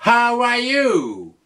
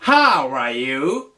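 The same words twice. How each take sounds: First: How are you with high start, falling end; falling question. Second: How are you low, rising at the end; rising question. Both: Shown as a demonstration. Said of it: "tu peux lui dire".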